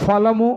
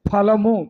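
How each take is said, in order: First: The first sound is an f with lip and teeth. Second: The first sound is an aspirated p with both lips. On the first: The speaker calls it wrong. "Sita ఫలము అంటాం" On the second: The speaker calls it right. "ఫలము రెండు పెదవులు కలవాల"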